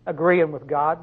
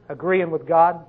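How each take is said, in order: Both takes have the same delivery.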